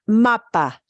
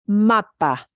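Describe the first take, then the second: No difference in how they are said.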